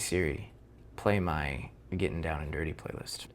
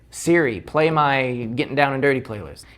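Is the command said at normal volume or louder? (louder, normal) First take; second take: normal; louder. First: The command is said at normal volume. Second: The command is said a little louder.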